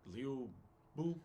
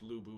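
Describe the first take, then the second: First: The name is said with a Chinese-like first vowel. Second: The name is said with plain English vowels. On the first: The speaker calls it right. "It's it's like Liu Bu" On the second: The speaker calls it wrong. "It's not actually pronounced Lubu"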